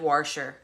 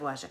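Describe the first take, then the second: First: An r sound is added in the first syllable. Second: There is no r sound in the first syllable. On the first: "said warsher" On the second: "instead of washer"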